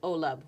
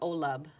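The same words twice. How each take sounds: No difference in how they are said.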